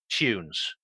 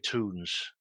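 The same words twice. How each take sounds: First: The word is said in a non-American accent. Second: The word is said in an American accent. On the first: "where I come from, my accent ... is pronounced distinctly different. Tunes. We say tunes" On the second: "I think in the States you say tunes"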